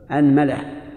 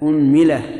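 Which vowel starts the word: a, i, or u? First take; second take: a; u. First: The word begins with the vowel a. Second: The word begins with the vowel u. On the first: "فتح الهمزة" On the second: "ضم الهمزة"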